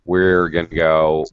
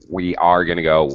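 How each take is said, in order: First: We are is contracted into one syllable. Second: We are is said as two full words.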